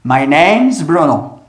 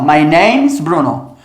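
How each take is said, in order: No difference in how they are said.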